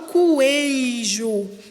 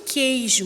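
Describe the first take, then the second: First: The u is sounded after the first consonant. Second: The u is silent after the first consonant. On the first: The speaker calls it wrong. "eu não falo coejo" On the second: The speaker calls it right. "eu falo queijo"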